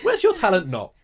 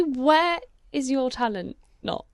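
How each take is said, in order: First: High and loud mocking repeat of "Where's your talent not?"; gleeful mock echo of the jumbled question. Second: Slow, garbled mock question; word-mixed question said slowly. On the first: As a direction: throw "Where's your talent not?" back, much higher and louder. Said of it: "ask a question normally". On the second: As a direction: say "Where is your talent not?" slowly with the words jumbled. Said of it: "We'll say".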